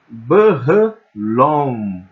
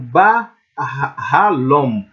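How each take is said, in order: First: The first vowel sounds like a weak 'e'. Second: The first vowel sounds like a stressed 'a'. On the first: The speaker calls it wrong. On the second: The speaker calls it right.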